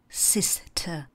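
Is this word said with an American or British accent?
British. British accent, with no R sound at the end. "já se kloním k té britské angličtině"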